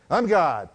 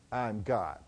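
First: Louder, more convinced mock declaration; trying to mean it. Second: Hesitant mock Shirley, softer and lower; timid, unconvinced. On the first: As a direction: say it as if you believe it. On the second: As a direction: say it weakly, not believing it. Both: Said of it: "say it like you mean it".

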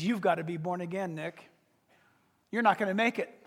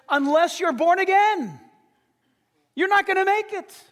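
First: Much softer and lower, almost confiding; hushed warning. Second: Higher and louder, pressing the point; forceful warning. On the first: Jesus quietly telling Nick he must be reborn. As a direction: lean in and say it low. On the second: Jesus warning Nicodemus, raised and forceful. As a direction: push it like a final warning. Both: Retold or imitated.

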